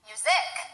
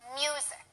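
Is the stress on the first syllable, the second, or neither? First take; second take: second; first. First: The stress is on the second syllable. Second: The stress is on the first syllable. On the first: The speaker calls it wrong. "If we stress the second syllable, it would be music" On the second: The speaker calls it right. "the stress is on the first syllable"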